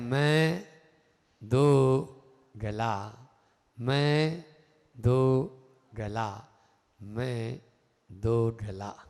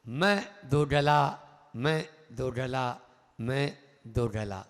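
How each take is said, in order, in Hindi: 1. तीनों वाक्यांश स्पष्ट विरामों के साथ बोले गए हैं। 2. तीनों वाक्यांश बिना विराम के जल्दी-जल्दी बोले गए हैं। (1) "विराम करके बोला है" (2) "हमने तो जल्दी जल्दी बोल दिया"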